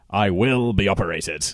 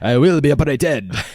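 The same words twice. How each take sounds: First: It is said in a plain, unaccented voice. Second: It is said with a put-on French accent. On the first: The speaker calls it wrong. "I should have done that in a French accent" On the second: The speaker calls it right. "in a French accent"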